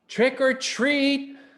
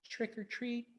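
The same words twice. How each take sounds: First: It is said a little louder. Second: It is said very softly.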